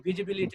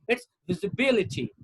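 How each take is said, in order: First: The stress is not on the third-last syllable. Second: The stress is on the third-last syllable. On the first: The speaker calls it wrong. "this is not visibility" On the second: The speaker calls it right. "No, it's visibility"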